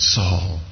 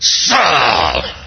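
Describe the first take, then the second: First: It is said with sorrowful heartbreak. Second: It is said in an angry way.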